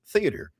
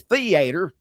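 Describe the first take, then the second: First: It has a standard, neutral pronunciation. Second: It has a Southern country pronunciation. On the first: The speaker calls it right. "it was theater" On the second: The speaker calls it wrong. "I didn't have to say theater"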